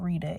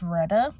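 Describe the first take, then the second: First: The first vowel sounds like 'ee'. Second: The first vowel sounds like 'eh'. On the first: The speaker calls it wrong. "I was mispronouncing her name. Her name is not Rita" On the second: The speaker calls it right. "it's Retta"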